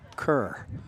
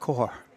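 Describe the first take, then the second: First: The vowel sounds like the one in 'her'. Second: The vowel sounds like the one in 'more'. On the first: The speaker calls it wrong. "I've never quite figured that. I just don't get it" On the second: The speaker calls it right. "It's core"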